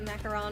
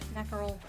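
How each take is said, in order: First: It is said with an anglicized English pronunciation. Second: It is said with a full French pronunciation. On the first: "That's the anglicized version of it" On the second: "They don't go like full French"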